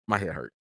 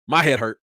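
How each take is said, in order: First: Lower, softer, worn-out sigh of a line; weary quiet complaint. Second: Said in the usual way. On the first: Real, not acted. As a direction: sound drained and done.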